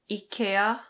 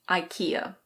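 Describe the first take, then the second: First: It is said with a Swedish pronunciation. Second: It is said with an English pronunciation. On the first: "in Swedish it's pronounced IKEA, something like that" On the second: "in English we pronounce it IKEA"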